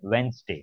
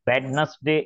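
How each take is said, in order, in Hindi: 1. पहला 'd' मौन है, और इसे 'Wensday' की तरह बोला जाता है। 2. पहला 'd' और बीच का शब्दांश उच्चारित होते हैं।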